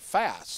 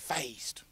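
First: The word is said with a neutral accent. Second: The word is said with a Southern accent. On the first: The speaker calls it right. "You want to go around going fast" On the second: The speaker calls it wrong. "somebody on a commercial that's Southern and they go"

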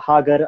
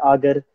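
First: The word begins with an h sound. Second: The word begins with a vowel sound. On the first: "In Amharic, they tend to drop H's a lot" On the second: "they tend to drop H's a lot"

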